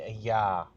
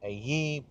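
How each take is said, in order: First: The word ends with a 'yah' sound. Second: The word ends with a 'yeh' sound. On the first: The ending is read as the divine name Yah. "we know that it is Yah. So we say a Yah" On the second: This is how other people pronounce it. "they pronounce it a ye"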